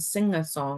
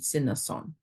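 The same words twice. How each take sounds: First: The words use a full ng sound. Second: The words use a soft n sound. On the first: "instead of saying" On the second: "the N G in a Tūhoe dialect is like a n, not the ng"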